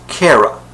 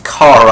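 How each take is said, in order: First: Kara said "KAIR-uh"; first vowel of Kara like "care"; CARE-uh pronunciation. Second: Kara with "ah" as in car; KAR-uh pronunciation. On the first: Fan cites the cartoons' version, Kara as KAIR-uh. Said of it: "they pronounced it Kara". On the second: Fan confirms the show's pronunciation, Kara said KAH-ruh. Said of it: "yes, it's pronounced Kara". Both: Shown as a demonstration.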